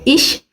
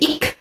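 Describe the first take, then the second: First: The word ends in a soft ch sound. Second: The word ends in a hard k sound.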